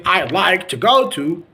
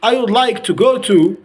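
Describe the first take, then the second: First: "I'd" as one merged syllable; contracted American pronunciation. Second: Said in the usual way. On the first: Shown as a demonstration. Teacher modelling the alternative, contracted "I'd". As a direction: run "I'd like to go to" together. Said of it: "you can say". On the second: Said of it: "Instead of saying".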